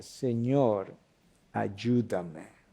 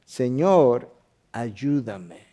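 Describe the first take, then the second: First: Soft and low, ayúdame nearly breathed out; quiet desperate plea. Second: Humble plea. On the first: Believer on their knees in trouble, quiet plea. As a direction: cry out softly from the heart. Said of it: "y clamaste". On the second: Kneeling woman begs the Lord for help, humble plea. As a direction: beg from your knees. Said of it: "se postró ante él, diciendo". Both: Retold or imitated.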